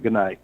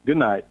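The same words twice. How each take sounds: First: A curt, flat-toned "Good night."; dry. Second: Said in the usual way. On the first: Retold or imitated. Upset coworker answering his goodbye, dry "Good night.". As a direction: clip "Good night." short and cold. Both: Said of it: "really dry like that".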